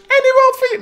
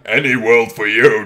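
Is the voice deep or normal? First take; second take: normal; deep. First: It is said in a normal voice. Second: It is said in a deep voice. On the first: The speaker calls it wrong. "Nee, dat klinkt niet" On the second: The speaker calls it right. "Die doen we gewoon met de lage stem"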